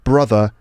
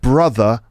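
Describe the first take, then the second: No difference in how they are said.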